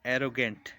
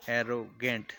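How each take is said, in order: First: Said in the usual way. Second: एरोगेंट with a gap between एरो and गेंट; split into syllables. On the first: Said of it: "word को तोड़ के देखते हैं". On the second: Shown as a demonstration. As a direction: break एरोगेंट in two parts. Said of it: "दो syllable हैं".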